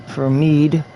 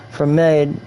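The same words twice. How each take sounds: First: "mead" fixed to a long "meed"; self-correcting to "meed" with a long ee; corrected pronunciation. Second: "mead" said as "med" with a short e; reading "mead" wrongly as "med"; misread vowel. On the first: Correcting himself on the drink menu, "mead" as "meed". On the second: Reading a game drink menu, "mead" slipped as "med". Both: Real, not acted.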